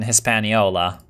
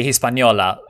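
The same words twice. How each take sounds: First: Hispaniola said the American way; Anglicized "Hispaniola" in an American accent. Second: Hispaniola said the Spanish way; "Hispaniola" with Spanish vowels and a Spanish ñ; Spanish pronunciation. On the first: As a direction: say Hispaniola with plain American sounds. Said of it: "saying this in an American accent". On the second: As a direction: pronounce Hispaniola as a Spanish speaker would. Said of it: "I could probably say Hispaniola". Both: Shown as a demonstration.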